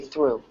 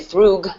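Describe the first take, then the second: First: The word ends without any G sound. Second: The word ends with a hard G sound. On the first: The speaker calls it right. "We say through" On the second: The speaker calls it wrong. "We don't say thrug"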